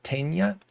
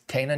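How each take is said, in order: First: The middle consonant is a ny sound. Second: The middle consonant is a plain n sound. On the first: The speaker calls it wrong. "not Tena" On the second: The speaker calls it right. "there is no tilde, so it is Tena"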